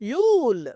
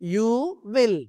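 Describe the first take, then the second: First: The words are joined into one short syllable. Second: Both words are said fully and separately.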